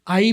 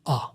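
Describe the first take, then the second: First: It is said as a full 'eye' vowel. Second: It is said as a short 'ah' vowel. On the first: "आई भी ठीक है" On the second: "छोटा सा आ"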